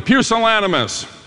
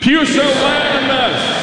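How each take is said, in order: First: It is said at normal volume. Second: It is said very loudly.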